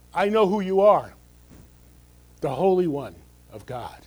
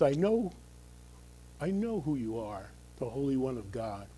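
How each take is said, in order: First: Loud, forceful demon's declaration; demon's defiant claim. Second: Quieter reread. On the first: Pastor voicing demon confronting Jesus, loud defiant claim. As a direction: shout it as a challenge. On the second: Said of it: "this last sentence". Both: Acted.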